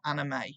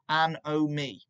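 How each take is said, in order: First: The word is said like anime. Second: The word is said as an-o-me. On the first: The speaker calls it wrong. "not anime" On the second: The speaker calls it right. "It's pronounced an-o-me"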